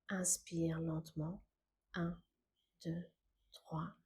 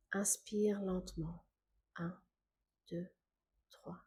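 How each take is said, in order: Both takes have the same delivery.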